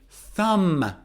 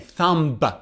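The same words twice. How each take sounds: First: The word ends with no B sound. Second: The word ends with a B sound. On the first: The speaker calls it right. "B is silent in thumb" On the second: The speaker calls it wrong. "I don't say"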